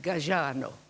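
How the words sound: The name is said with an Italian accent. This shows Italian or Corsican flair. "if you want to show Italian or Corsican flair, you say"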